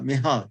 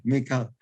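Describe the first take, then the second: First: Mihal with an H sound in the middle; soft H pronunciation. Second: Mikhal with a K sound in the middle; hard K pronunciation. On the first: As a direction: say "Mihal", breathing an H instead of K. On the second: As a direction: say "Mikhal" with KH as a plain K. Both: Shown as a demonstration. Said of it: "Mikhal or Mikha".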